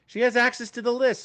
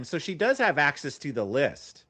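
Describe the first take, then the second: First: "has" punched high and loud; stress on has. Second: Said in the usual way. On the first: Real, not acted. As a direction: hit "has" hard. Emphatic realization.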